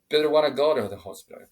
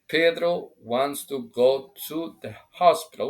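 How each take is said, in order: First: 'Wants to' is shortened to a quick 'wanna'. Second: 'Wants to' is said in full, word by word. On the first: The speaker calls it right. "So we make it faster. We make it like simple. We shorten" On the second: The speaker calls it wrong. "We can say it, but it doesn't sound natural"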